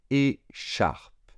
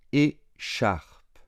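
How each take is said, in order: First: Whispered. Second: Said in the usual way. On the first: Shown as a demonstration. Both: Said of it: "se prononce chat".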